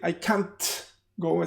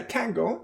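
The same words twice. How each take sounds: First: The T in can't is clearly released. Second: The T in can't is dropped. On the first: The speaker calls it wrong. "I don't say usually, I can't go for the negative, right? The T" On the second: The speaker calls it right. "I just say I can't go"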